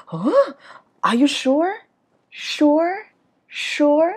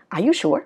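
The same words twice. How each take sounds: First: High, loud, doubting "sure" going up; rising question tune. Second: "sure" drops like a statement; wrong falling ending. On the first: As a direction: lift each "sure" in disbelief. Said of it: "Đi, đi lên". ("sure" lên giọng, ngờ vực) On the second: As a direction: let "sure" sink at the end. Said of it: "Chứ không lẽ". ("sure" xuống giọng cuối câu) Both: Shown as a demonstration.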